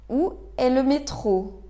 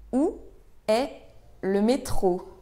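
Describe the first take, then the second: First: Said in the usual way. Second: Pauses after Où and after est; word by word. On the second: Shown as a demonstration. Teacher models asking for the metro, word by word. Teacher breaks question down for learners.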